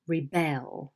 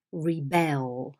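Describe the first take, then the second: First: ReBEL, stress on the second syllable; verb rebel. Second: REbel, stress on the first syllable; noun rebel. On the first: Teacher showing the verb: "rebel" as re-BEL. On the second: Teacher showing the noun: "Rebel" as REB-el. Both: Shown as a demonstration. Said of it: "the noun is rebel and the verb is rebel".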